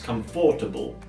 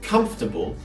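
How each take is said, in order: First: The stress falls on a later syllable. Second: The stress falls on the first syllable. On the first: The speaker calls it wrong. "mispronounced as comfortable" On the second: The speaker calls it right. "the stress is at the beginning with come"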